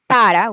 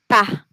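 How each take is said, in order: First: The word is said in full, two syllables. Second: The word is cut to one syllable. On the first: "when we say para" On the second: "In South America, we use pa"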